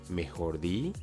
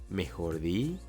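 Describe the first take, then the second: Both takes have the same delivery.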